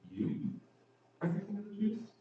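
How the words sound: It is incredulous, with strong stress on 'you'.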